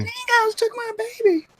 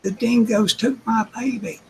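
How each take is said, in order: First: Hammed-up high Australian wail, dingoes took my baby; mock Aussie movie line. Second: High hammed-up Australian quote of the line; mock Aussie movie line. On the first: Woman mocking the movie's famous line, high mock wail. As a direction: parody the movie mother's cry. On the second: Friend repeats the movie line to the group, high mock Aussie wail. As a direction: echo the movie mother's cry in fun. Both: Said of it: "She's making fun of the movie".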